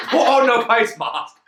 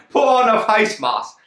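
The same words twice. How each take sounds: First: Paul Chowdhury. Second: Mock geezer. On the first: Retold or imitated. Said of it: "Now I'm fucking Paul Chowdhury". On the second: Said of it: "We got face masks, mate".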